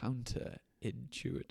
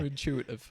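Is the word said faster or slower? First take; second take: slower; faster. First: The word is said more slowly and drawn out. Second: The word is said at a moderate pace. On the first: "Go on a bit slower" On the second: "say that word again a bit slower"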